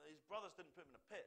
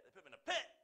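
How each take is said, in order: First: Said in the usual way. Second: Final "pit" shouted high and very loud; stress on PIT. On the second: Shown as a demonstration. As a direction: build to an explosive "pit". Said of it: "to show the emphasis on a word".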